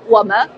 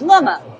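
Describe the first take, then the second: First: It is said in standard Mandarin pronunciation. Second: It is said in a Shaanxi-like Hedong accent. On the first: "我们普通话会说我们" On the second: "敦煌话是我们，是不是跟陕西话有点像？"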